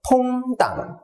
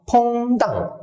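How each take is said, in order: First: 퐁당 sung out slowly in a bouncy rhythm; sing-song rhythm. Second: Said in the usual way. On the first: Shown as a demonstration. Teacher sets the rhythm for counting, sing-song. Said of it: "음률을 드리겠습니다". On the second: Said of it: "요 뉘앙스를".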